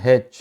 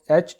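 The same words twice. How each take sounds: First: हेच with a breathed opening h, haych; native English pronunciation. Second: एच with no opening h sound. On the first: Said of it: "इसको गोरे बोलते हैं". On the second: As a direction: say एच as "aych", vowel first. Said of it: "Asia में एच बोलता". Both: Shown as a demonstration.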